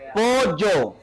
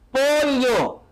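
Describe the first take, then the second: First: The middle consonant is a y-like sound. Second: The middle consonant is a lateral l-like sound. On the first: "ahora con la Y" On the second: "con la L, escucha"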